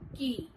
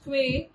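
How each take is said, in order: First: It sounds exactly like the word key. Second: It is said the way it is spelled. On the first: The speaker calls it right. "it is pronounced as key" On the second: The speaker calls it wrong. "is not pronounced as quay"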